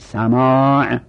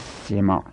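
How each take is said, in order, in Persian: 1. مصوت اول یک صدای باز 'a' است. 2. مصوت اول یک صدای کوتاه 'i' است. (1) "سماع به فتح سینه" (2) "سما با کسر سین نگید غلطه"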